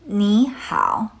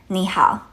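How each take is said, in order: First: The word is said slowly and drawn out. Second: The word is said at an everyday pace. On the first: "Now together slowly" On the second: "And at natural speed"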